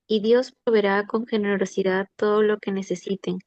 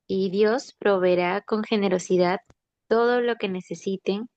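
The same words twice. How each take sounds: First: It is read at a normal pace. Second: It is read slowly.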